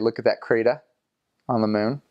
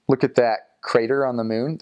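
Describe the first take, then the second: First: The r sounds are dropped in a local accent. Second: The r sounds are clearly pronounced. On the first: "they'd say" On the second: "If they were going to say"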